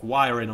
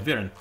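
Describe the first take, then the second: First: The name is said in a non-Polish way. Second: The name is said in a Polish way. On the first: The speaker calls it wrong. "You'd probably pronounce it like Wiren or something" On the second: The speaker calls it right. "I'm gonna pronounce it the Polish way"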